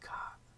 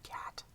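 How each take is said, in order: First: The final t is replaced by a glottal stop. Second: The final t is clearly released. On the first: "in a British English accent they say cat" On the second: "instead of cat"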